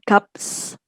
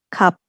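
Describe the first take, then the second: First: The word ends with a p followed by s. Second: The word ends with a p and no s. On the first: The speaker calls it wrong. "bukan kaps" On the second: The speaker calls it right. "tapi kap"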